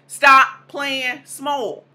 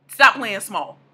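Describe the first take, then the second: First: Slow, weighty command; slow emphatic. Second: Quick firm echo; punchy repeat. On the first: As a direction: stop playing small dragged out very slowly and loud. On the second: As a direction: Stop hit loud, lower, at normal pace. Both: Shown as a demonstration.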